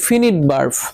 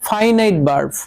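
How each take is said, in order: First: Finite is said 'fin-it' with short vowels. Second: Finite is said 'fai-nait' with 'eye' vowels. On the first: The speaker calls it wrong. "এটার অনেকে উচ্চারণ করেন ফিনিট verb" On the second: The speaker calls it right. "এটার উচ্চারণটা হলো ফাইনাইট verb"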